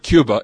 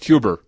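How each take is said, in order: First: The word ends in a plain vowel. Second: The word ends with an added r sound. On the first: "So it's not Cuba" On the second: "you put an R on the end of any word that ends in a vowel"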